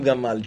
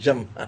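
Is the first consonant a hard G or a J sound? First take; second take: hard G; J. First: The word begins with a hard g sound. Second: The word begins with a j sound. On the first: The speaker calls it wrong. "לא אומרים גמל" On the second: The speaker calls it right. "ג'מל, דגש יש"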